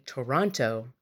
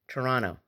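First: It is said the non-Canadian way. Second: It is said the Canadian way.

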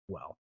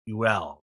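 First: The name is said fast, blended into one syllable. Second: The name is said carefully as two syllables. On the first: "when you say it fast, it's well" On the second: "if you really look in the pronunciation, it's more like UEL"

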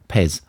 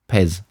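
Both takes have the same delivery.

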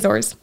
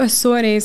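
First: It is pronounced the English way. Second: It is pronounced the Portuguese way.

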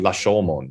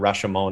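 First: The word is said in a Japanese-like way. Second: The word is said in an anglicized way. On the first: This is the actual, original way to say it. "but it's actually Lashomon" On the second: This is the way most people commonly say it. "people just say Rashomon is fine"

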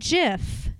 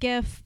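First: The word begins with a soft J sound. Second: The word begins with a hard G sound. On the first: The speaker calls it right. "I pronounce it GIF. Like choosy moms choose GIF" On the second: The speaker calls it wrong. "I know some of you like GIF, but you're wrong"

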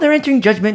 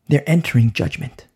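First: It is said in a gleeful, mocking tone. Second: It is said in a solemn, serious tone. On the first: The judgment is a cause for rejoicing. The speaker calls it wrong. "I don't say this, oh, ... ha ha ha, let's be, you know, joyful. No" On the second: The judgment is a cause for sorrow. The speaker calls it right. "It's sad, it's devastating"

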